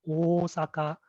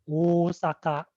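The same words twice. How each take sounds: Both takes have the same delivery.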